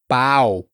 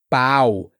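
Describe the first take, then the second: No difference in how they are said.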